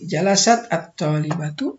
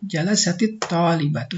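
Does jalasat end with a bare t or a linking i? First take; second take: bare t; linking i. First: The t of jalasat is closed, with no vowel. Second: The t of jalasat links on with an i vowel. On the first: "bisa disukunkan jalasat at-talibatu" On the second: "kalau mau disambungkan dia digunakan harokat kasrah"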